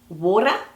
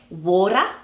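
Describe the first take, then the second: The two takes are said the same way.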